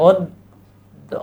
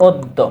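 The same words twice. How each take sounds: First: "অদ্য" very slow, as od, pause, do; pronunciation demo. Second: Said in the usual way. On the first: Shown as a demonstration. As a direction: split "অদ্য" at the doubled d. ("অদ্য" ধীরে ওদ-দো করে ভেঙে বলা) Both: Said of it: "কি হবে?".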